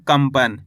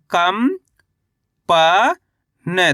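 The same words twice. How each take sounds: First: कंपन as one whole word, falling at the end; कंपन said in one piece, settling downward; joined-up word. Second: कम, प, न as separate drawn-out syllables with pauses; कम and प held long, then न. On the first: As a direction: blend कंपन together without breaks. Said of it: "तो मिलके बन जाएगा". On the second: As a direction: sound out कम, प, न slowly for a learner. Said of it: "मेरे साथ साथ इनको रिपीट करना है". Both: Shown as a demonstration.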